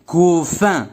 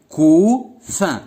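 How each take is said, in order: First: Said in the usual way. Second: Couffin as a held cou, pause, then fin; split into syllables. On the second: Shown as a demonstration. Teacher helping pupils hear the repeated sound, split into syllables. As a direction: separate the two syllables of couffin to isolate fin. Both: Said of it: "Quel est le son qui se répète?".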